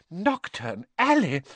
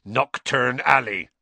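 First: Higher, slow horrified exclamation; appalled. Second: Slow, grim, heavy delivery. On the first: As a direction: let the name horrify you. Mrs Weasley appalled at the place. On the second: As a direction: say it like bad news. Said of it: "said Hagrid grimly". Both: A narrator's reading.

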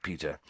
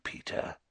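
First: Said in the usual way. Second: Whisper. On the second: A narrator's reading. Whispered name in tense confrontation.

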